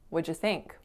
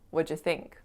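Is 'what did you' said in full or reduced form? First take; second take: reduced; reduced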